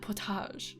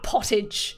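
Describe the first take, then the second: First: It is said with a French accent. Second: It is said with an Australian accent. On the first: "you say it with a French accent" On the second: "in Australian, you'll be like, ah"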